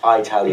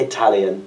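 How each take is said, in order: First: It is said in an Irish accent. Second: It is said in a British accent. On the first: "but you Irish would say Italian" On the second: "with it like a, a British accent, it would be Italian"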